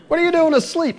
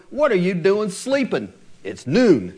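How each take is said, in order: First: Much higher, louder mock exclaim; exasperated parent. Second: Lightly voiced nagging parent, a touch of mock scolding; parent scolding teen. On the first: Parent exasperated at teenager asleep at noon, hammed-up loud exclaim. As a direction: throw up your hands at the sleeping teen. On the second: Parent to teenager sleeping at noon, mild mock scolding. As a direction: chide a sleepy teen without much heat. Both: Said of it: "what we say to our teenagers".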